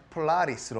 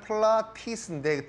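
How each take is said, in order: First: The middle consonant is a soft r-like flap. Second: The middle consonant is a clear t. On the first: "T가 또 ㄹ과 같이 이렇게 발음이 약화가 되기 때문에" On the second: "원래는"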